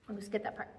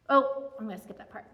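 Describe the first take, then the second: First: Muttered under the breath to herself; a much softer, lower repeat to herself; quiet aside. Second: Said in the usual way. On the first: Real, not acted. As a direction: say it almost to yourself, much softer.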